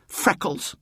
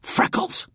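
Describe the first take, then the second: First: High-pitched jeer; voiced childish insult, pitched up; taunting. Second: Sharp voiceless hiss. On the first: Francis putting out his tongue at William, taunting. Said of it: "put out his tongue". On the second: Francis insulting William over the sleeper, hissing. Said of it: "he hissed once again". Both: A narrator's reading.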